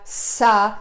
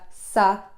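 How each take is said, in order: First: The consonant is pushed with a strong burst of air. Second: The consonant is made with very little air. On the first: The speaker calls it wrong. "au lieu de faire ça, ça, de mettre mon intensité dans la poussée d'air" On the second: The speaker calls it right. "de diminuer la quantité d'air qui passe à l'intérieur"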